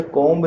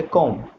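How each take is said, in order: First: कॉम्ब said as kombi, the b spoken out; wrong way: कॉम्ब with a voiced b at the end, kombi; comb with the b sounded. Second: कॉम्ब said as kom, ending on m, no b; right way: कॉम्ब as one syllable kom, silent b; comb with silent b. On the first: Teacher to students showing the wrong way, b sounded. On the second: Teacher to students showing the right way, b silent. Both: Shown as a demonstration. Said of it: "बी जो होता है इसके अंदर silent होता है".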